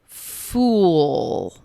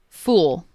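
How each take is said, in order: First: The word is drawn out very slowly. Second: The word is said at a normal speed. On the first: "then I will repeat each word very slowly" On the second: "I'm going to say each word normally first"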